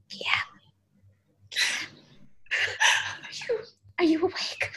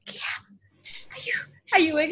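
First: Soft unvoiced whisper, afraid to wake him; hesitant whisper. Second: Whispered name, then a soft voiced question; a little more voice, still careful; tentative quiet call. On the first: Waking a sleeping Guillaume at dawn, whispered. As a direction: barely breathe the name, then the question. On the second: Second try waking sleeping Guillaume, hushed then voiced. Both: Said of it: "but you don't really wanna wake them up".

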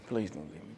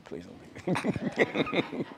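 First: Softer pleading whimper; begging an ex back. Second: Slow laughing mock plea; begging an ex back. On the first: Pretend. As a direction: plead softly like a dumped lover. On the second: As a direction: drag it out through a laugh. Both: Jokingly begs audience to stay.

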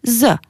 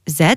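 First: Z buzzed like a wasp, plus eu; z as a buzzing "zuh"; Albanian letter sound. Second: Said in the usual way. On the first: Shown as a demonstration. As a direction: say z as "zeu", not "zède". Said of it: "comme le son d'une guêpe". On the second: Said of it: "ça se prononce".

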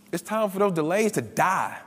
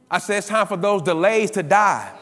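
First: Said in the usual way. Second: Louder, insistent preacher's declaration; emphatic repeat. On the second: Real, not acted. Preacher repeats it to the congregation, emphatic and louder. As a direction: drive the repeat home with more force.

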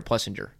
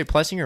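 First: "Plessinger" with a soft G, like "Plessin-jer"; soft-G pronunciation. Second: "Plessinger" with a hard G, as in singer; hard-G pronunciation. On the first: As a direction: say "Plessinger" with a J sound. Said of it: "you say Plessinger or Plessinger?". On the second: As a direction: say "Plessinger" with no J sound. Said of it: "like, the hard G sound". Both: Shown as a demonstration.

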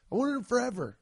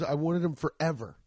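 First: Pitched higher, leaning on wanted; a sneakerhead insisting how long he wanted them; emphatic longing repeat. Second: Said in the usual way. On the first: Real, not acted. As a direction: say it again with real yearning, higher.

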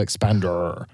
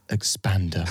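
First: "expander" ending on a drawn-out R; last E dropped. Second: Said in the usual way. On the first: Shown as a demonstration. Host showing the spelling, "expander" with a long final R. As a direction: say "expander" with no vowel E, holding the final R. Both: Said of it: "but without any".

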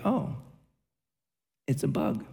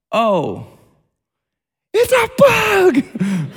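First: Softly and calmly, unbothered: Oh, it's a bug; quiet, matter-of-fact mild remark. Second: High, slow, stretched-out scream of panic: it's a bug!; panicked shriek. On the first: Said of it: "I said it just like that". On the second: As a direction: freak out loudly, voice shooting up high. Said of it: "Just like that". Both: Retold or imitated.

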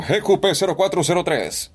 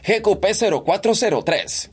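First: Reading a plate in an altered voice; playful voice exercise; put-on voice. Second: Pitched up, changed timbre; voice-actor warm-up; higher put-on voice. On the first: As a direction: try a different voice on the plate. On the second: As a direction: another character voice on the plate. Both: Shown as a demonstration. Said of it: "Hago cualquier voz".

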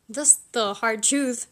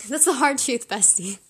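First: Said in the usual way. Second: Louder, with a laugh, playful; laughing repeat. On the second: Shown as a demonstration. Teasing the viewer as bestie, laughing and louder. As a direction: laugh it off to a friend.

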